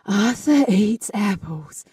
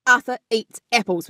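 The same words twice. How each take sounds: First: "Arthur eats apples" slowly, each vowel eased in on breath; slow, airy starts on "Arthur eats apples"; breathy onset. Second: Each vowel in "Arthur eats apples" attacked with a glottal stop; hard onset. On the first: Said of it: "Or a breathy onset". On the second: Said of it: "we do hard onset". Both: Shown as a demonstration.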